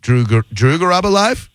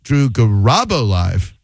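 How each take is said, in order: First: Drew Garabo live as a question, climbing high to LIVE; said another way. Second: Slow Drew Garabo live, big swoop on RA, falling end; said another way. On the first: Host toying with a caller, questioning upswing on live. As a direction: lift the end of live into a question. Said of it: "Every time you say it one way". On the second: Host switching it on the caller, swooping stress on Garabo. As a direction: stretch the RA of Garabo, then drop on live. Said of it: "I'm gonna say it another". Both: Shown as a demonstration.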